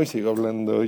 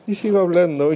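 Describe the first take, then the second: First: Voz alejándose. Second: Voz cercana. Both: Shown as a demonstration. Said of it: "me estoy moviendo de lugar con mi teléfono".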